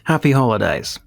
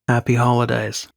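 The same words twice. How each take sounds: First: The greeting sounds warm and sincere. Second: The greeting sounds a little sarcastic.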